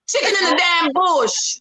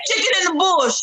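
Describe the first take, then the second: First: It is said in a Jamaican accent. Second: It is said in her usual non-Jamaican accent.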